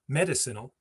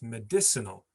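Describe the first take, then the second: First: The stress is not on the third-from-last syllable. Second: The stress is on the third-from-last syllable. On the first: The speaker calls it wrong. "It's not medicinal" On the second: The speaker calls it right. "It's medicinal. So it's the third"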